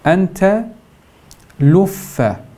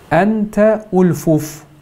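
First: The two f sounds merge into one doubled f. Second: The two f sounds stay separated by a vowel. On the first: "luffe şeklinde telaffuz ediyoruz" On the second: "idgamsız şekilde de kullanabiliriz"

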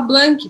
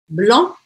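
First: The final k is sounded after a plain vowel. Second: The vowel is nasal and nothing follows it. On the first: The speaker calls it wrong. "eu não vou falar blank" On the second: The speaker calls it right. "abrindo um espaço dentro da minha boca"

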